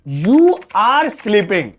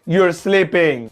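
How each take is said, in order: First: The word are is said in full. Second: The word are is shortened and joined.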